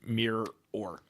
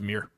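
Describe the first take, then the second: First: An extra 'or' syllable is added at the end. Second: No extra 'or' syllable is added at the end. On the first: The speaker calls it wrong. "I don't say mirror or" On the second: The speaker calls it right. "It's just mirror"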